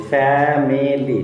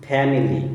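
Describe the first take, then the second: First: family slowly, in three drawn-out beats; three separate syllables. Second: Said in the usual way. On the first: Shown as a demonstration. Teacher demonstrates three syllables, slowly broken up. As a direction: hold each syllable of family apart. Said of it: "তিনটে syllable". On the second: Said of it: "তাহলে family".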